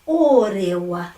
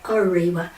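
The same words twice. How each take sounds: First: The first o is a pure Māori vowel. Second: The first o is an English-style vowel. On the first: The speaker calls it right. "O, it's only ever going to be o" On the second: The speaker calls it wrong. "not orewa"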